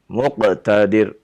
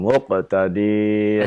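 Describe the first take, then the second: First: The final syllable is kept short. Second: The final syllable is drawn out long. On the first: The speaker calls it right. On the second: The speaker calls it wrong.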